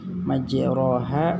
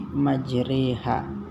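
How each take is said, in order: First: The middle syllable has a full open 'o' vowel. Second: The middle syllable leans toward an 'i' vowel. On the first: "majroha menjadi majriha" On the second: "Inilah yang dikatakan dengan imalah"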